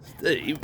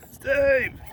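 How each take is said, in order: First: Said in the usual way. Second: A sharp, high, louder call of the name. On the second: Real, not acted. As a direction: yell his name to get his attention. Calling out to toy car.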